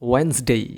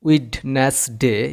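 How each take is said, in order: First: The d sound is left silent. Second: The d sound is clearly pronounced. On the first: The speaker calls it right. "এখানেও ডি silent থাকবে" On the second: The speaker calls it wrong. "এরকম বলা যাবে না"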